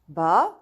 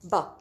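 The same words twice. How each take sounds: First: It is said with the second tone. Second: It is said with the fourth tone. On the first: "Going to the second word" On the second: "And the fourth one"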